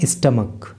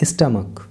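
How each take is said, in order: First: The word ends with a 'k' sound. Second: The word ends with a 'k' sound.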